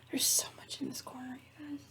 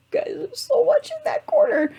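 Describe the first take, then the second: First: Whispered aside about the corner; whispering. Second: High, loud exasperated wail; exasperated squeal. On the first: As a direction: whisper it under your breath. Complaining about the cluttered corner. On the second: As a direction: cry it out, much higher. Repeats the complaint in a louder voice. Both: Real, not acted.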